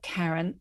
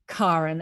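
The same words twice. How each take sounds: First: The first vowel sounds like 'air'. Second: The first vowel is an open 'ah' sound. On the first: This is the common form others use. The speaker calls it wrong. "and not Karen" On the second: This is the Scandinavian form the family wanted. The speaker calls it right. "Mum was very insistent that people call me Karen"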